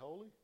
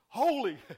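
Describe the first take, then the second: First: It is said weakly, without force. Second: It is said strongly and with force.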